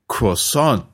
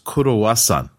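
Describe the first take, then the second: First: It is said with an English pronunciation. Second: It is said with a Japanese pronunciation. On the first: "I said, croissant" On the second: "the Japanese pronunciation of croissant is kurowasan"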